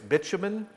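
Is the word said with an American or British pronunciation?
British. It is said with a British pronunciation. "In English, British"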